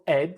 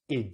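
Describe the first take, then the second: First: The vowel is an open 'e' sound. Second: The vowel is a short 'i' sound. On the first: The speaker calls it wrong. "So it's not ed" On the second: The speaker calls it right. "it's id"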